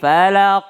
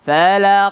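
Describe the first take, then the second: First: The word ends on the consonant. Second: The same.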